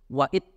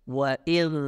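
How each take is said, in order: First: The final consonant is cut off as a stop. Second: The final consonant is a continuous flowing sound. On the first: The speaker calls it wrong. "Itu tidak boleh. Ya, suaranya tertahan" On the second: The speaker calls it right. "Itu suara yang keluar"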